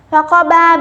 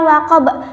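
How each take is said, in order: First: The word ends with a final vowel. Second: The word ends on a consonant. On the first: The word is read without stopping. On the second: The reader stops on this word.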